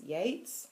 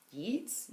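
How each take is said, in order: First: Yeats said as "Yates", with an ay vowel, rising; questioned pronunciation. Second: Yeats said as "Yeets", with a long ee, rising; questioned mispronunciation. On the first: Reader unsure of her poets, trying Yeats as "Yates?". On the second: Reader unsure of her poets, trying Yeats as "Yeets?". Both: Shown as a demonstration. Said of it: "showing how little I know".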